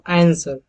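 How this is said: It is said in an American accent.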